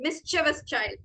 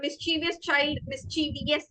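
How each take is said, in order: First: "mischievous" as MIS-chuh-vus, slowly; correct pronunciation. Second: "mischievous" as mis-CHEE-vi-us; wrong pronunciation. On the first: Teacher correcting the common mistake, carefully pronounced. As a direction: say "mischievous" in three syllables, stress first. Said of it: "it is mischievous child". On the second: Teacher showing students the common mistake, mispronounced. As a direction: say "mischievous" with a long chee and an extra syllable. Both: Shown as a demonstration.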